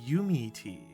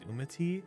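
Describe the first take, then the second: First: The name begins with a 'you' sound. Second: The name begins with a plain 'oo' sound. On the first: The name plays on the phrase 'you and me'. "Like you and me, you me" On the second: The speaker first assumed this reading of the name. "I thought that's how you would pronounce it"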